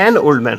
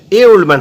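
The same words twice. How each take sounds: First: "an" stressed as the correction, lower pitch. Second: "a" stressed as the wrong article. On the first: Teacher giving the corrected article, stressing "an". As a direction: lean on "an", then settle lower. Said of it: "an old man হবে". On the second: Teacher rejecting the wrong article, stressing "a". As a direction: lean on "a" to flag the mistake. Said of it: "a old man হবে না". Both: Shown as a demonstration.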